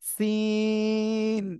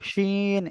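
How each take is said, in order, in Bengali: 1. এটি শুরু হয় হিসহিসে s ধ্বনি দিয়ে। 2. এটি শুরু হয় ফিসফিসে sh ধ্বনি দিয়ে। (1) "শাসা শব্দ করে উচ্চারণ হবে না" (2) "শিন এভাবে হবে না"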